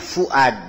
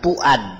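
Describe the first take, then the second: First: The name begins with an F sound. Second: The name begins with a P sound. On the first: The speaker calls it right. "Ini namanya Fuad" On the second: The speaker calls it wrong. "bukan Puad"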